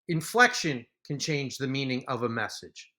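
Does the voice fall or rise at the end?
fall. The voice falls at the end like a statement. It is a plain statement.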